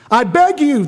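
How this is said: It is read with desperate, pleading urgency. The speaker calls it right. "Let's read it a little more appropriately"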